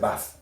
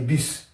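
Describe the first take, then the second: First: The word is said with an English vowel. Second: The word is said with a French vowel. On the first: "Mais en anglais, c'est basse" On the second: "En français, on va dire bus"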